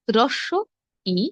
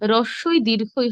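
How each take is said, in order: First: Each name is said as two separate words. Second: Each name is run together into one word. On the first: The speaker calls it right. "সঠিক উচ্চারণ হবে" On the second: The speaker calls it wrong. "রস্বই দীর্ঘই হবে না"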